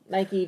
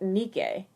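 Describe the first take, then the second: First: It is said the English brand way. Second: It is said the Greek way. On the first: It names a shoe. The speaker calls it wrong. "Nike just is a sneaker" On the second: It names the goddess of victory. The speaker calls it right. "the actual pronunciation of the Greek goddess name"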